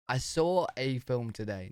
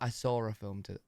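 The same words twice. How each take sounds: First: No r sound links saw and a. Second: An r sound links saw and a. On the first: The speaker calls it right. "how would you say it properly?" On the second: The speaker calls it wrong.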